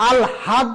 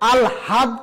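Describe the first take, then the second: First: An l is followed by a separate h sound. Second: The same.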